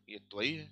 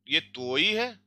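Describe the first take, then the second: First: त्वई as a quicker "tva-EE"; short a, stressed ई in त्वई; two-syllable form. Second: त्वई drawn out slowly as "tvoy"; one-syllable form. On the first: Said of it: "ये vowel होता है". (त्वई को "त्व-ई", ज़ोर ई पर) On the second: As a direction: stretch the o of त्वई into a y-glide. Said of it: "यहाँ पे ये क्रातकय है". (धीरे से, त्वई को "त्वोय") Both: Shown as a demonstration.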